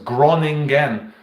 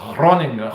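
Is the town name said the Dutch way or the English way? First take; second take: English; Dutch. First: The name is said with an English pronunciation. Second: The name is said with a Dutch pronunciation. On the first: "I know it as Groningen" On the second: "the Dutch pronounce it as Groningen"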